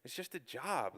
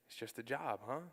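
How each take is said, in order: First: Brushing off "it's just a job" with a light shrug; flippant. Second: "It's just a job" echoed softer, deflated; hurt and quiet. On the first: Son brushing off his mom's excitement, flippant. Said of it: "all flippantly". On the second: Mom repeating her son's brush-off, quiet and hurt. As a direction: hand his words back quietly, hurt. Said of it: "And she got real quiet". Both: Retold or imitated.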